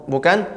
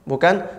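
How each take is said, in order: The two takes are said the same way.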